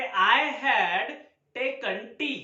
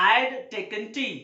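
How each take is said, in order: First: Said in the usual way. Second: I'D merged into one syllable; stylish contraction. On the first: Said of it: "अगर मुझे बोलना है". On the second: Shown as a demonstration. Teacher gives learners the stylish version, contracted I'D. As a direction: shrink I had to I'D. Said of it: "इसको style में बोल सकता हूँ".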